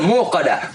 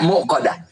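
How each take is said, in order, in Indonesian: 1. Vokal pertama dibaca panjang, tanpa jeda. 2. Vokal pertama dipotong oleh hamzah. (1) "Mu-nya panjang itu" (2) "Banyak yang baca muqada"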